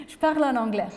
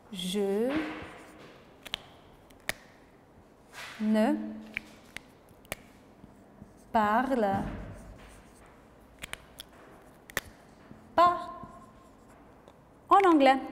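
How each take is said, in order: First: Said in the usual way. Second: Teacher spacing out the negation for the class; slow, word by word negation. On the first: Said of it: "professeur de français". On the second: Shown as a demonstration. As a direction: spell out "ne" and "pas" around "parle" with long pauses. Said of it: "ne et pas".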